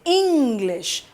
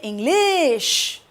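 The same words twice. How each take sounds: First: The stress is on the first syllable. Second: The stress is on the second syllable. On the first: The speaker calls it right. "ing is stressed more" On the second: The speaker calls it wrong. "We don't say English"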